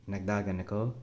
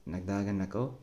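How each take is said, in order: Both takes have the same delivery.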